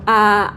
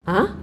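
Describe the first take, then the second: First: The pitch stays high and level. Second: The pitch rises like a surprised question. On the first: "kita mulai dari nada sol" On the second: "seperti kita lagi kayak heran gitu loh"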